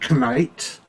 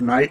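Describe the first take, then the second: First: The word starts with a spoken K sound. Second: The word starts with an N sound, no K. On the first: This is how it was said in the past. "we would say knight to differentiate between the two" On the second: This is how it is said today. "instead of night"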